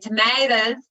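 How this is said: It is said with an American accent. "a lot of our T V programs are American. So our little ones are now saying tomatoes"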